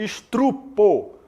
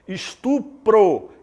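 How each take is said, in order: First: The r sound comes in the second syllable. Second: The r sound comes in the last syllable. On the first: The speaker calls it wrong. "em vez de estrupo" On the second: The speaker calls it right. "Estupro em vez de"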